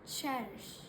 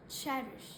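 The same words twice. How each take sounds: The two takes are said the same way.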